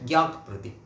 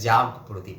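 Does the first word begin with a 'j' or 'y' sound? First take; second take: y; j. First: The first word begins with a 'y' sound. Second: The first word begins with a 'j' sound. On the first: It refers to a sacrificial fire lamp. The speaker calls it right. "বর্গীয় জ নয়, কিন্তু এটি কিন্তু অন্ত্যেষ্টিয় জ" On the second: It refers to a lamp kept burning to stay awake. The speaker calls it wrong. "আমিও আগে ভাবতাম যে এটা বোধহয় জাগ প্রদীপ"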